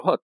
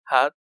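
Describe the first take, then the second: First: The vowel is a long o sound. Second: The vowel is a short, light o sound. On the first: The speaker calls it wrong. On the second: The speaker calls it right.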